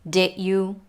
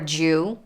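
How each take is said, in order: First: Both words are said fully and clearly. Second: The words merge into one short syllable.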